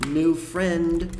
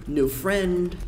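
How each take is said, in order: The two takes are said the same way.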